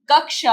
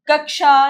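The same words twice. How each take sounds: First: Said in the usual way. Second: कक्षा offered as the faulty form, pitched up; mispronounced कक्षा. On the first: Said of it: "कक्षा होता है". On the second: Shown as a demonstration. Teacher showing children the wrong form, कक्षा held up as an error. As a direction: say कक्षा as the mistake to be rejected. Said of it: "कक्षा नहीं".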